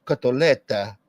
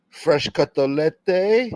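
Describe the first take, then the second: First: "Cotoletta" with a clear final a; correct cotoletta. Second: Slow drawn-out "Fresh cotolette?" with a rising question; "cotolette" stretched out slowly, ending on e; mock cotolette. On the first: Shown as a demonstration. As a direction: end "Cotoletta" on an open a sound. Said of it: "I'm the only one that says it correctly". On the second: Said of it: "You said cotolette".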